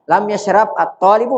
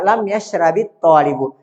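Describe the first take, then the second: First: Yashrab ends in b with no added vowel. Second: Yashrab ends with an added i vowel. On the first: "kalau antum mau baca lam yashrab at-talib bisa" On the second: "untuk memudahkan antum bisa baca"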